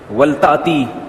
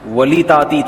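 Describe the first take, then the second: First: The l has no vowel after it. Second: An i vowel follows the l. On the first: This is the form as actually read. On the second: This is the underlying original form.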